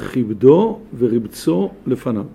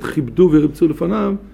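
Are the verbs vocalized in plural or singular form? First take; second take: singular; plural. First: The verbs are vocalized in the singular form. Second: The verbs are vocalized in the plural form. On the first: One person did the sweeping and sprinkling himself. "הצורת ניקוד אחת" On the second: A group did the sweeping and sprinkling instead. "יש צורת ניקוד אחרת"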